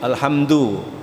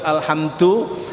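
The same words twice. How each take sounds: First: The final syllable is nasalized as ndu. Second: The final syllable is a plain du, no n. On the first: The speaker calls it wrong. "Yang enggak boleh ndu, alhamdu. Itu salah ya" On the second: The speaker calls it right. "Harus alhamdu"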